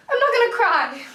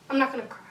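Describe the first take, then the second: First: Holding back tears. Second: Sighed, softer and quicker, near tears; a quiet, tired refusal to break down; holding back tears. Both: Acted.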